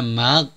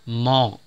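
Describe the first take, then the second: First: Both the m and the gh are light. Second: Both the m and the gh are heavy. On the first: "Jangan ghain ditipiskan sehingga bunyinya mag" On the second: "jangan mimnya ditebalkan sehingga bunyinya mog"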